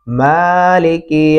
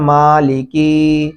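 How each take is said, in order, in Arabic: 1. تُمَدّ حركة المقطع الأول. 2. تُمَدّ حركة المقطع الثاني. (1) "मीम को लंबा करना है" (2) "या काफ को लंबा कर दिया जाता है"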